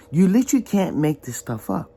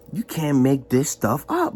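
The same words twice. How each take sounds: First: Literally pushed up high; literally said higher with a rising end; stress on literally. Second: Said in the usual way. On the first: Shown as a demonstration. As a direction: lean hard on literally.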